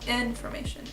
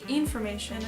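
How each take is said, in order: First: The first vowel is a short, lax 'i' sound. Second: The first vowel is a long, tense 'ee' sound. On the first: The speaker calls it right. "it's information" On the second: The speaker calls it wrong. "it wouldn't be information"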